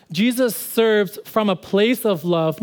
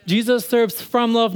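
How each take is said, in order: First: Slow, deliberate. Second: Said in the usual way. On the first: Shown as a demonstration.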